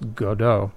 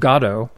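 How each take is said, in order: First: The name is said with a French pronunciation. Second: The name is said with a British pronunciation. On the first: "in France, G-O-D-O-T ... would be pronounced Godot" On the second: "the people from the UK tend to pronounce it Godot"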